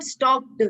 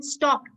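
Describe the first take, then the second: First: "stocked" ending in a voiced D; "stocked" mispronounced as "stokd"; wrong final D. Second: "stocked" ending in a voiceless T; crisp T closing "stocked"; final T sound. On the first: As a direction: say "stocked" with a "duh" at the end. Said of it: "not stocked". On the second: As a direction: say "stocked" as "stokt". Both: Shown as a demonstration.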